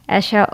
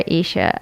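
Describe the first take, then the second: First: The first vowel sounds like 'eh'. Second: The first vowel sounds like 'ee'. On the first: This is how family members say the name. "that's when how my mom and dad pronounce it" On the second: This is how some people at school say the name. "some people in school called me Isha"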